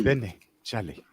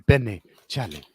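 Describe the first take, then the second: First: Benny, Charlie drawn out slowly and softer; slow African accent demo. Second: Benny, Charlie in a low put-on African accent; African accent demo. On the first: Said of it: "Just get it right". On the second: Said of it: "practice it in the mirror every night". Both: Shown as a demonstration.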